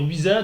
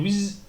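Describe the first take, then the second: First: The word ends with an added vowel. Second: The word stops sharply on the consonant. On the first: The speaker calls it wrong. "au lieu de dire wiza" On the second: The speaker calls it right. "tu dis wiz, tu la bloques"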